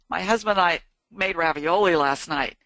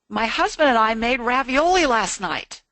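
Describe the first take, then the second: First: The tone sounds troubled and upset. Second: The tone sounds positive and happy. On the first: Something went wrong that evening. "you can tell from my intonation that there was something wrong" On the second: The evening went well. "you've gotten from my tone that it was a positive thing"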